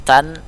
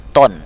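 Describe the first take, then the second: First: "Tan" with a light t and open a; softened letter ta. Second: "ton" heavy and rounded; rounded letter to. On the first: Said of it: "huruf ta dia agak dilembutkan". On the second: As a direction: round out "ton", full-mouthed. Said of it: "agak dibulatkan huruf to". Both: Shown as a demonstration.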